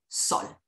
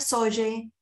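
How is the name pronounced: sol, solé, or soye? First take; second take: sol; soye. First: The name is said as one syllable, 'sol'. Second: The name is said as two syllables, 'soye'. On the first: The speaker calls it right. "La manera correcta de pronunciarlo es como el sol" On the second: The speaker calls it wrong. "No se pronuncia soye"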